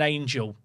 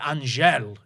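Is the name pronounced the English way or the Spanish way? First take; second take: English; Spanish. First: The name is said with English sounds. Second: The name is said with Spanish sounds. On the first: The speaker calls it wrong. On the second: The speaker calls it right.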